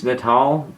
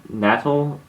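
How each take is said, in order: First: Natal said "nuh-TAHL"; stress on second syllable. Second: Natal said "NAT-ul"; stress on first syllable. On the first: Host reading out a viewer's username, Natal as nuh-TAHL. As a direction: stress the end of Natal, with an open "ah". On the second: Host retrying a viewer's username, Natal as NAT-ul. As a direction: stress the start of Natal, with a short flat "a". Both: Real, not acted.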